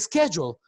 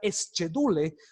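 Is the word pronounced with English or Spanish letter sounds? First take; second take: English; Spanish. First: The word has its normal English pronunciation. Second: The word is read letter by letter, Spanish style. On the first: The speaker calls it right. "la palabra se pronuncia schedule" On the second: The speaker calls it wrong. "En inglés no se puede pronunciar schedule"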